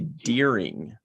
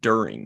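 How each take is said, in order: First: The first vowel sounds like 'deer'. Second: The first vowel sounds like 'dur'. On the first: The speaker calls it wrong. "people that say deering instead of during" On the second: The speaker calls it right. "instead of during"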